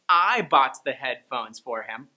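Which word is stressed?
I. The stress falls on the first word, I. Nobody else bought them. "By stressing I"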